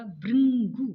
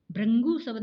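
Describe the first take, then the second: First: भृंगु said as bhringu, louder; correct way. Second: भृंगु said as bhrangu; wrong भृंगु. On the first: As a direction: stress भृंगु with a clear ri. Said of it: "भृंगु शब्द होगा". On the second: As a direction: mispronounce भृंगु with a. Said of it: "भृंगु शब्द नहीं होगा". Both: Shown as a demonstration.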